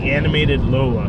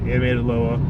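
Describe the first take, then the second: First: The name is spoken clearly and carefully. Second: The name is mumbled and hard to make out. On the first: The speaker calls it right. "just so you guys can hear me correctly" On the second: The speaker calls it wrong. "because I just mumbled that one just there"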